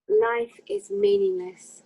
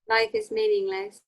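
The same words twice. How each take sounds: First: It is said with dramatic, gloomy emo feeling. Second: It is said plainly, without added emotion.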